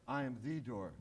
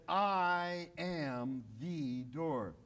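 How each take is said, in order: First: "I am the door" softer, with "the" lightly leaned on; softer repeat. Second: "I am the door" very slow, with "the" leaned on; stress on the. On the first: Preacher repeating Jesus' words to the church, soft and hushed. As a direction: let it sink in, softly. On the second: Preacher insisting Jesus is the one door, slow and emphatic. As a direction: slowly, lean on "the" in "the door". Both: Shown as a demonstration. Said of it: "Not a door".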